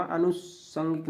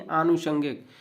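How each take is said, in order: First: आनुषंगिक with a short first अ; wrong pronunciation. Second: आनुषंगिक with long first आ; correct pronunciation. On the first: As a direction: clip only the first vowel of आनुषंगिक to अ. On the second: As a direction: stretch the opening आ of आनुषंगिक. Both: Shown as a demonstration. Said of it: "आनुषंगिक नहीं".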